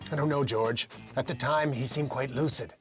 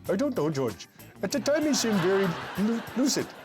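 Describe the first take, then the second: First: It is said in his plain accent. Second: It is said in an East Indian accent.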